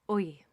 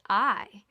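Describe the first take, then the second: First: It is said in an Irish accent. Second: It is said in a General English accent.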